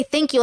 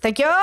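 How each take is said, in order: First: Said in the usual way. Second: Jokey catchphrase thank you; obvious mimicking. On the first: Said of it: "isn't it obvious that I don't say". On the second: Shown as a demonstration. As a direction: thank you with a rising, rounded YOU. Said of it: "I'm obviously mimicking something".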